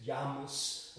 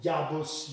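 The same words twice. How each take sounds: First: Jamus said slowly and softer, m in the middle. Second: Jabus as Ya-bus, clear b in the middle. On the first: Recapping the next step, Jamus slowly as Ya-mus. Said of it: "you get Jamus". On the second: Recapping where the name started, Jabus as Ya-bus. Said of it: "so you get from Jabus". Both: Shown as a demonstration.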